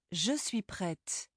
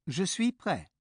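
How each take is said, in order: First: Je suis prête, slow and soft, final T heard; feminine prête. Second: Je suis prêt with the T silent, ending on prɛ; prêt ends in the open vowel, no t; masculine prêt. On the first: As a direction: sound the t at the end of prête. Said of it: "adding that E has changed the sound". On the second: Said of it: "the silent T ending". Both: Shown as a demonstration.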